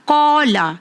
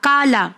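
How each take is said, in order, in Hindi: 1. यह गहरी, हलक़ से निकली q की आवाज़ से शुरू होता है। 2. यह सादे, आगे के k की आवाज़ से शुरू होता है। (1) "कौफ का साउंड एकदम क्लियर होना चाहिए" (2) "अक्सर क्या गलतियां होती है"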